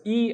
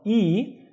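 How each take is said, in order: First: "E" as a short "ee" sound; short vowel. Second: "E" as a long, higher "ee"; twice as long. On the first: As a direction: keep "E" brief, a single short vowel. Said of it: "is just E". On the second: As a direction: hold "E" for double the length. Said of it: "makes it twice as long". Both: Shown as a demonstration.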